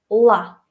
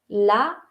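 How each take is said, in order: First: The L is hard and dark. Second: The L is neither hard nor soft. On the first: "tiene que ser uh, nuestra versión dura de la L" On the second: "como la uh, manera castellana de pronunciarlo"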